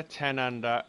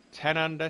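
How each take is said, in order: First: Said in the usual way. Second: Awed. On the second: Real, not acted. Reading others' scores in awe.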